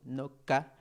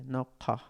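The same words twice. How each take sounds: First: "no ka" said dry and plain like a K, rising at the end; dry K pronunciation. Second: "no ka" with the Q sound, said clearly and a bit louder; correct Quechua pronunciation. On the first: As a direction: pronounce "no ka" seco, a flat K sound, as the wrong example. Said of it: "Si yo pronunciara así seco". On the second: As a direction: say "no ka" with the back-of-throat Q, clean and firm. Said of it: "La pronunciación también no ka". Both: Shown as a demonstration.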